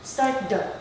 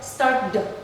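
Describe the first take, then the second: The two takes are said the same way.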